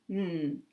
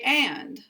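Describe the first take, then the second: First: The word is a bare n with no vowel. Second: The word has a full open vowel. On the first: "And this is n" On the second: "English speakers can say and"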